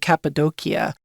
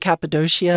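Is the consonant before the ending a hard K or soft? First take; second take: hard K; soft. First: The consonant before the ending is a hard K. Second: The consonant before the ending is soft.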